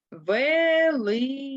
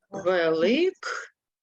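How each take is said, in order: First: "Великдень" said slowly with a voiced г, as it sounds; slow spoken-form demo. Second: "Великдень" said slowly with a clear к, as it is written; slow spelling-form reading. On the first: Teacher to class, slow spoken-form reading. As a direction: stretch out "Великдень", voicing the к to г. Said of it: "Прочитаємо перше слово". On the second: Teacher to class, slow written-form reading. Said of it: "а пишемо глухий приголосний к". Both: Shown as a demonstration.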